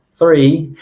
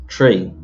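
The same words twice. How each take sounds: First: Said in the usual way. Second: "tree" with a hard T in place of TH; Irish TH as T. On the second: Shown as a demonstration. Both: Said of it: "is often pronounced tree".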